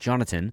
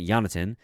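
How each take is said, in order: First: The name is said with an English pronunciation. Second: The name is said with a Swedish pronunciation. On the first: The speaker calls it right. "I'm still trying to get better at saying Jonathan" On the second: The speaker calls it wrong. "that Swedish pronunciation"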